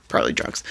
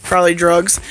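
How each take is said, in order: First: Whispered aside. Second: Said in the usual way. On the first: Real, not acted. Repeating the drugs joke to the viewers, now as a whispered aside. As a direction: whisper the words Probably drugs, much softer, as a throwaway.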